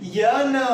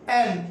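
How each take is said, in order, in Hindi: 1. इसकी शुरुआत स्वर से पहले 'y' की आवाज़ से होती है। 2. यह सीधे सादे स्वर से शुरू होता है। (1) "एकदम गंवार" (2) "इट्स अ एन"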